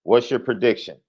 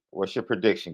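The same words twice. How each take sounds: First: Said in the usual way. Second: Your leaned on, said softer; softer, leaning on "your"; stress on your. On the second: Shown as a demonstration.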